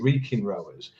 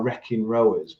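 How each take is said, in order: First: The first vowel is long, like 'reek'. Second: The first vowel is short, like 'reck'. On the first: The speaker calls it right. "but it's actually reeking rowers" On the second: The speaker calls it wrong. "your American accent. It's always uh, like we are wrecking rowers"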